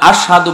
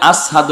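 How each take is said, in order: First: The middle consonant is a 'sh' sound. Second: The middle consonant is an 's' sound. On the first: The speaker calls it right. "Belal আশহাদু বলতে পারে না" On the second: The speaker calls it wrong. "তার মুখের মধ্যে আসহাদু আয়, সিন উচ্চারণ হয়"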